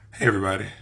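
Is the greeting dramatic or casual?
casual. It is said in a casual, normal way.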